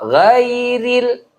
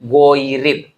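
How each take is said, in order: First: The first vowel is a clear, open 'a'. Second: The first vowel is a rounded 'o'. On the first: The speaker calls it right. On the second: The speaker calls it wrong.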